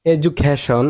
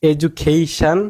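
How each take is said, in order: First: Education as "eju-kha-shon"; wrong pronunciation. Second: Education as "eju-KEI-shan"; correct pronunciation. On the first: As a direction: say education with a flat, short "kha". (education, "এজুক্যাশন" উচ্চারণে) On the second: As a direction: lengthen and stress "kei" in education. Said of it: "it will be". (education, "এজুকেইশান" উচ্চারণে) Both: Shown as a demonstration.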